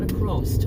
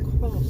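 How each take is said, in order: First: The word ends with an added t sound. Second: The word ends with an s sound. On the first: The speaker calls it wrong. "Not a crossed. Why did I say a crossed? I would never say that" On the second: The speaker calls it right. "Run across a few"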